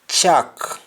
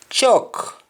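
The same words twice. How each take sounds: First: CHALK as open "chak"; Jamaican pronunciation. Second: CHALK with rounded "chok" vowel; English-style round vowel in CHALK; English pronunciation. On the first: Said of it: "we say al". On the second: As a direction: say CHALK as "chawk". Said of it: "instead of saying all". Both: Shown as a demonstration.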